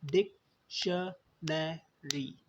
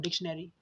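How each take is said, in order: First: डिक्शनरी very slowly in four separate beats, डिक-श-ने-री; syllable by syllable. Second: Said in the usual way. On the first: Shown as a demonstration. Teacher counting the parts of a word, डिक्शनरी syllable by syllable. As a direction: break डिक्शनरी into डिक, श, ने, री with pauses. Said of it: "कितने हिस्सों में pronounce हो रहा है". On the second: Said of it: "क्या ऐसे बोल पा रहा हूँ".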